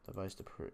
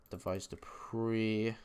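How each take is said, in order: First: Whispered under the breath; whispering. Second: Said in the usual way. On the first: Real, not acted. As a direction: whisper the names to yourself. Repeating picks while typing names.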